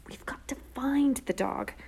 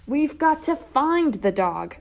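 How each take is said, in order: First: Slow, urgent whisper. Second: Loud, high, drawn-out holler. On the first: Sister catching herself in the empty alley, whispering. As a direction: hiss it under the breath, drawn out. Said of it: "I repeated in a whisper". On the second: Sister fed up with slow brother, hollering. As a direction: holler it with exasperated force. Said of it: "I hollered". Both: A narrator's reading.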